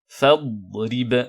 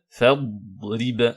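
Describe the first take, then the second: The two takes are said the same way.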